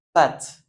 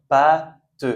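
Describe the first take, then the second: First: Said in the usual way. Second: PÂTE as loud "pa", pause, "te"; split into syllables. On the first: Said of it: "il ne change pas la prononciation". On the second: Shown as a demonstration. Teacher showing â is a normal A, "pâte" in two parts. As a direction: break "pâte" apart with an ordinary "a". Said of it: "on le prononce comme un A normal".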